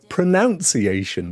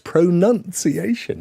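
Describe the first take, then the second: First: The second syllable sounds like 'noun'. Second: The second syllable sounds like 'nun'. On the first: The speaker calls it wrong. "very often said as pronunciation, but there ain't no O in it" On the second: The speaker calls it right. "It's pronunciation"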